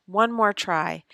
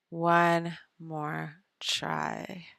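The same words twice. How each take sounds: First: Said in the usual way. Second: Drawn-out resolve. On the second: Real, not acted.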